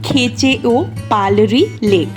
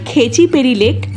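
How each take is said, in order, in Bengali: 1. নামটা পুরোটাই বলা হয়। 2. নামটা সংক্ষেপে, ছোট করে বলা হয়। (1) "এটার আসল উচ্চারণ হলো" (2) "আমরা বলি হচ্ছে"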